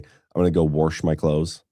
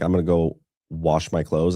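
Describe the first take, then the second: First: Wash is said as warsh, with an r sound. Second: Wash is said plainly, without an r sound.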